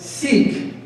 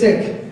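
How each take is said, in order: First: The vowel is a long ee sound. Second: The vowel is a short i sound. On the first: The speaker calls it wrong. "Do not pronounce the word Sikh as" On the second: The speaker calls it right. "It's actually"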